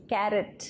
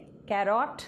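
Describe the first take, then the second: First: कैरेट said as "kaire-t", stressed on the first syllable; correct pronunciation. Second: कैरट said as "carrot" with a flat second syllable; wrong pronunciation. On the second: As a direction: offer the mistaken कैरट as a question. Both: Shown as a demonstration. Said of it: "नहीं, कैरेट".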